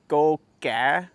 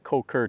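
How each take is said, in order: First: The name begins with a G sound. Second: The name begins with a K sound. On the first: This is how local people say it. "the Cambodians pronounce it Ko Ka or something like that ... they do a G sound with the K" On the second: This is how it looks when read from the map. "it looks like Ko Ker to me because it's with a K"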